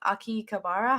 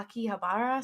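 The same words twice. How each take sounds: First: Akihabara with a K in the middle, "ah-kee-kuh-BAR-uh"; tentative Akihabara, its H turned into a K; unsure pronunciation. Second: Akihabara with a breathed H, "ah-kee-huh-BAR-uh"; second try at Akihabara, landing on "ha-BAR-uh"; corrected pronunciation. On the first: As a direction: say Akihabara as "Aki-kabara", trying it out. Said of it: "How the fuck do you". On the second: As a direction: say Akihabara with H, not K, in the middle. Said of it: "I think that's how you say it". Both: Real, not acted.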